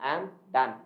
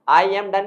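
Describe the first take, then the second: First: The 'I' is dropped, leaving only 'am done'. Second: The full form is said, starting with 'I'. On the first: The speaker calls it right. "आई एम की जगह बोलेंगे केवल एम" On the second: The speaker calls it wrong. "आई एम डन नहीं बोलना"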